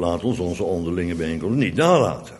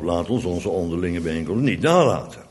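First: One word in the sentence gets strong emphasis. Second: One word in the sentence gets strong emphasis.

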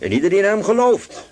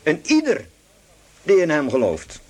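First: The stress falls on the word gelooft. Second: The stress falls on the word ieder. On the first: The point is believing. "In 9 vers 33 lag de klemtoon op en ieder die in hem gelooft" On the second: The point is that there is no distinction between people. "Maar nu verschuift de klemtoon. De klemtoon ligt nu op"

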